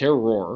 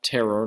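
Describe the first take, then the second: First: It ends with a French 'wahr' sound. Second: It sounds like the English word terror. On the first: The speaker calls it right. "it's terroir" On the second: The speaker calls it wrong. "not terror"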